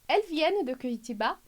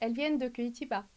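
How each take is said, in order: First: The voice rises at the end. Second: The voice falls at the end. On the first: It asks a question. "Primeiro interrogação" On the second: It makes a statement. "Aí a entonação desce"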